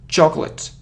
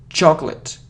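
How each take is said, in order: No difference in how they are said.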